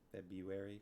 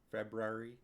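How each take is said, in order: First: The first R is dropped entirely. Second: The first R is clearly pronounced. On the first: "Or do you just say February?" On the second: "Do you pronounce the first R in February?"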